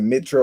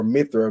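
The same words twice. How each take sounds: First: Mitra with a T after MI; pronounced with T. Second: Mithra with TH after MI; pronounced with TH. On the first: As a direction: say Mitra as MIT-ra. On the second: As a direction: say Mithra as MITH-ra. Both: Shown as a demonstration. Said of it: "they either said Mitra or Mithra".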